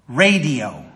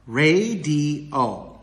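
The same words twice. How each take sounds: First: Said in the usual way. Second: Slow ra-di-o, each syllable drawn out; radio syllable by syllable. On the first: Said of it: "three vowel changes". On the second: Shown as a demonstration. Teacher putting example words together, radio in slow syllables. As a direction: stretch radio into three separate beats. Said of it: "let's put those words together".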